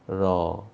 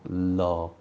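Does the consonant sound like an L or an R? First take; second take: R; L. First: The syllable starts with an R-like sound. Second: The syllable starts with a clear L sound. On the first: The speaker calls it right. "It should be ra, ra, ra" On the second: The speaker calls it wrong. "You're doing la, la, la. This is not la"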